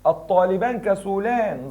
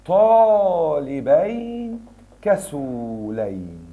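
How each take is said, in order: First: Said in the usual way. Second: الطالبين كسولين very slow, long -ayn endings; accusative dual shown. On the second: Shown as a demonstration. Teacher turns the sentence accusative for students, slowly drawn out. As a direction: stretch الطالبين and كسولين syllable by syllable.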